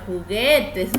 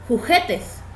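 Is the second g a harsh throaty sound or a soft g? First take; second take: soft g; harsh. First: The second g is a soft, voiced sound. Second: The second g is a harsh, throaty sound. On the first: The speaker calls it right. "la suave" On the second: The speaker calls it wrong. "G sonaría fuerte"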